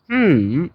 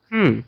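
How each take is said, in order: First: The pitch dips low, then rises. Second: The pitch falls sharply from high to low. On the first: "third is" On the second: "fourth is"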